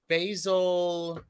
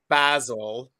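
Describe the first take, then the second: First: The word is said in an American accent. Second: The word is said in a British accent.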